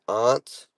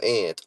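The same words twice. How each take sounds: First: "aunt" with a broad AH; pronunciation choice. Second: "aunt" said like ant; short A of cat in "aunt"; alternative pronunciation. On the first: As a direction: say "aunt" as ahnt. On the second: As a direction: make "aunt" rhyme with pant. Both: Shown as a demonstration. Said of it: "do you say it like".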